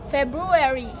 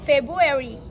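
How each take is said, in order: First: Both r sounds are clearly pronounced. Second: One of the two r sounds is dropped. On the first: This is the full standard form. "instead of" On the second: This is the common, simplified everyday form. "is often pronounced"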